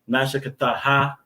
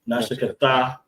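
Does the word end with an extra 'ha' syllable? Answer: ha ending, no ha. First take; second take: ha ending; no ha. First: The word ends with a final 'ha' syllable. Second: The word ends without a final 'ha' syllable. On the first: "it ends with that H" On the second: "as opposed to"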